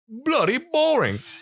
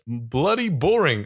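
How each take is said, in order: First: It is said in a put-on British accent. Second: It is said in the speaker's normal accent.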